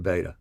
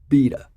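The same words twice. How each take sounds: First: It is said in a non-Australian, American way. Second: It is said in an Australian way. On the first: The speaker calls it wrong. "I'm I'm mispronouncing it" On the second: The speaker calls it right. "That's the Australian pronunciation"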